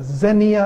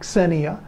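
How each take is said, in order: First: The word begins with a plain z sound. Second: The word begins with a ks sound. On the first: "as if it starts with a Z" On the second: "with uh, x sound at the beginning"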